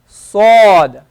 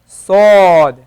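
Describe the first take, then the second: Both takes have the same delivery.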